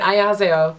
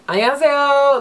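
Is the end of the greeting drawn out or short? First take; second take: short; drawn out. First: The greeting ends short and clipped. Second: The greeting's final syllable lingers, drawn out. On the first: "instead of just saying" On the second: "most times it's"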